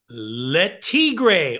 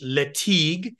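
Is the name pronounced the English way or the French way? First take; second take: English; French. First: The name is said with an English pronunciation. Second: The name is said with a French pronunciation.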